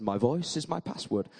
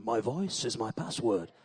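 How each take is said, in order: First: Said in the usual way. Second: Deep, soft, put-on voice with a laugh in it; a silly low voice to fool the voice check; put-on different voice. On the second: Shown as a demonstration. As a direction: disguise your voice for the machine, half laughing. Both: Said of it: "I need to do a different voice".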